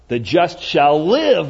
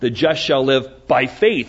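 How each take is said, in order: First: The stress is on "shall live". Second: The stress is on "by faith".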